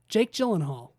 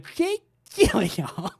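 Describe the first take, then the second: First: The name is pronounced in the normal way. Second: The name is pronounced in a distorted way. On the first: The speaker calls it right. "a real YouTube channel that pronounces words" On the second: The speaker calls it wrong. "The other one just bastardizes the word"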